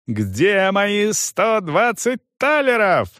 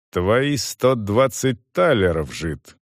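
First: High, slow outraged question; furious demand. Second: Cold. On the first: Young man demands his money, furious. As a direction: demand it, stretching each word. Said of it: "орал он". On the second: Soldier answers the raging youth, cold. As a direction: echo him icily, sinking at the end. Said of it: "холодно продолжал он". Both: A narrator's reading.

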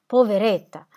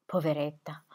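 First: Louder, breaking cry of pity; weeping pity. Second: Soft, quiet grieving murmur; tearful pity. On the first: Squire weeping over the widow, louder tearful pity. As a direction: let the tears rise. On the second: Squire weeping over the fainted widow, soft pity. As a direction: sigh it with pity. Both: A narrator's reading. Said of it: "piangendo per la sua sofferenza".

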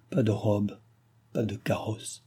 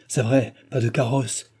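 First: Softly sinking, falling away at the end; faint dying murmur. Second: Exclaimed in sudden realisation; mild exclamation. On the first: The countess lamenting dress and carriage, a faint murmur. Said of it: "murmurait la comtesse mourante". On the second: Jean realising the carriage is missing, exclaiming. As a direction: cry it out, moderately, as it dawns on you. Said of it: "s'écria Jean". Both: A narrator's reading.

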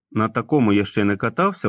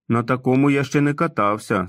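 First: Said in the usual way. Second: Put-on light childlike Tom voice, unsure; hesitant man-child eyeing the bike; doubtful. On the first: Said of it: "narration quoting Tom's words". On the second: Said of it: "засумнівався Том". (сумнівно, легкий дитячий голос)

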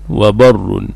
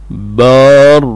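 First: وبر as wa-bar-run, short a; alif dropped. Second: بار as baaa-rrun, drawn out slowly; long alif. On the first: Teacher showing the shortened participle, وبر said wa-barrun. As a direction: say وبر with a short vowel and doubled r. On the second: Teacher showing the active participle, بار said with very long aa. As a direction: stretch the long aa in بار before the doubled r. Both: Shown as a demonstration. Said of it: "تحذف منه الألف".

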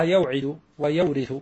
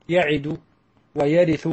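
First: يوعد and ويورث as yaw-idu, wa-yaw-rithu; original waw kept. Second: يعد and ويرث as ya-idu, wa-ya-rithu, no w after ya; dropped waw. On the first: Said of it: "أصلها". (يوعد ويورث بإثبات الواو الساكنة) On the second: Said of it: "فيجب حذف فاؤه". (يعد ويرث بحذف الواو) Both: Shown as a demonstration.

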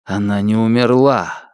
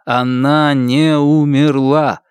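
First: Said in the usual way. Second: Slow, НЕ stressed and drawn out. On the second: A narrator's reading. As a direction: lean on НЕ in «Она не умерла». Repeated with stress on не.

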